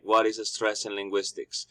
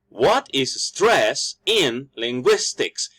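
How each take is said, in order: First: It is said flat with no stressed syllables. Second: Every syllable is stressed in an exaggerated way. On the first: "if I just say it all plain" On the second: "If I stress every single vowels, it sounds over exaggerated"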